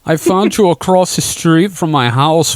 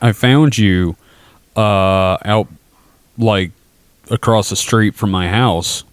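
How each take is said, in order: First: It is said in an imitated character voice. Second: It is said in the speaker's normal voice.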